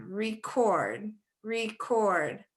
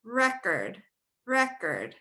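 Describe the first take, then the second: First: "record" as ree-CORD, second syllable drawn out; second-syllable stress. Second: "record" as REK-erd, short second syllable; first-syllable stress. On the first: Teacher shows stress changing meaning, "record" as ree-CORD. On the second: Teacher shows changed stress, "record" as REK-erd. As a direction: hit the REC in "record", like the noun. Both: Shown as a demonstration. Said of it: "when we change that stress".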